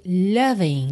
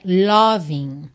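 First: Loving said lah-ving, open A vowel; loving, vogal aberta como A; loving with a short A. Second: Loving with a full round O, the wrong way; loving com O, pronúncia errada; loving with an O vowel. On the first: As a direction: say loving with the A sound, not O. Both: Shown as a demonstration. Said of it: "não é loving".

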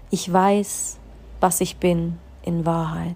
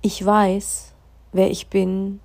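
First: Firm Ich weiß, then slow; slow affirmation of self. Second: Firm affirmation, spoken up; proclaiming Ich weiß, wer ich bin. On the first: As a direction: state it slowly, with weight. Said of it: "spür mal rein". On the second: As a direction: declare it with conviction. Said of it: "spür mal, was dieser Satz mit dir macht". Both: Shown as a demonstration.

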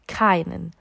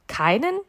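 First: Said in the usual way. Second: KEINEN lifted into a rising question; questioning repeat. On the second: A narrator's reading. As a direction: repeat "Keinen" with the pitch climbing at the end. („Keinen“ fragend, mit steigender Stimme) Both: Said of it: "wiederholte Gott".

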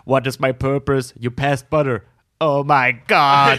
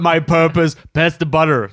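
First: Slow, dismayed robot voice; a little robot realizing its sad fate; rusty robot. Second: Stiff robot voice, louder; a tinny little robot asking its purpose; rusty robot. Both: Retold or imitated. Butter robot quoted from show.

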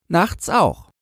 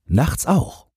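First: Put-on high child's voice, falling at the end; answering boy. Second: "Nachts auch" asked with a rise on "auch"; questioning. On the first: Boy confirms his night watch, firm answer. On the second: Man asks about the night watch, questioning "Nachts auch". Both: A narrator's reading.

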